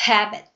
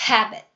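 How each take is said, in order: No difference in how they are said.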